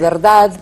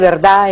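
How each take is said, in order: First: The final D sound is clearly pronounced. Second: The final D sound is dropped. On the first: "en lugar de" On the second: "que la D se pierde"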